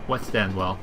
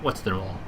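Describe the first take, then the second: First: Each word is said fully and separately. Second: The last two words blend into one reduced word. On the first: The speaker calls it right. "You just say the words" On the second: The speaker calls it wrong. "it must be like What Stanwell"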